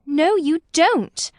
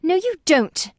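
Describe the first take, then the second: First: "No, you don't." slowed right down, high and loud; Lucy repeats the denial slowly, high and loud; slow emphatic repeat. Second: A high, loud snap; Lucy contradicts Cecil, high loud snap; snapped retort. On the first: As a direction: drag out each word, insisting. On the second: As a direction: cut him off sharply. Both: A narrator's reading. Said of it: "she snapped".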